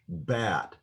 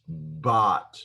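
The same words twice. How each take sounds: First: The vowel is the flat English 'ae' sound. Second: The vowel is an open 'ah' sound. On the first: "I would say in English, bat" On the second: "if I pronounce the word bat in Hebrew, it's bat"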